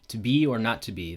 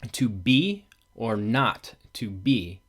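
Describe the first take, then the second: First: The stresses follow natural, uneven speech rhythm. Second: Every second syllable gets a strong, regular beat. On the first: It is how the line is actually read. "that's not how we actually read it. We read it" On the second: It shows the poem's underlying meter. "this is how the meter is stressed"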